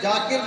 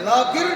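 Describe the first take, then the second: First: The name begins with a j sound. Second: The name begins with a non-j sound. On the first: The speaker calls it wrong. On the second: The speaker calls it right.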